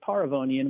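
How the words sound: The name is said the Armenian way.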